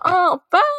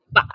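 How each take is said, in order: First: It is said in a cutesy, coaxing tone. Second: It is said in a plain, ordinary tone.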